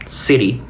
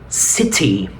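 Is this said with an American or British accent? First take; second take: American; British. First: It has an American accent with an r-like t. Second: It has a British accent with a t sound. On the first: "igualmente americano" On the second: "Y en británico"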